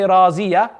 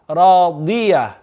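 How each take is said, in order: First: The middle consonant is a z sound. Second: The middle consonant is an emphatic d sound. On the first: The speaker calls it wrong. "we don't say raziyah" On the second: The speaker calls it right. "This letter is dad"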